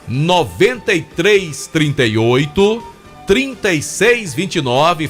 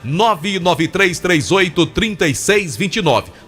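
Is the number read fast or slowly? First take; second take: slowly; fast. First: The number is read slowly and deliberately. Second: The number is read at a normal, quicker pace.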